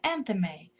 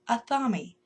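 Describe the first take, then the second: First: The word does not rhyme with 'mommy'. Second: The word ends rhyming with 'mommy'.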